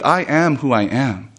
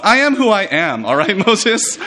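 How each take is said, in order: First: Slow, plain statement without sass; simple truth. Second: Put-on high, sassy teenage retort; mock a childish comeback, pitched up; pubescent sass. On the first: Acted. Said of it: "without sass, without any kind of childishness". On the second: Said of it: "pubescent kind of response".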